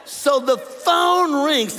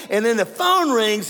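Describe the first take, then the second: First: "So the phone rings" drawn out very slowly, higher and loud, each word weighted; slow dramatic build. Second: Said in the usual way. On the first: Shown as a demonstration. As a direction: stretch "phone" long and heavy like a drumroll.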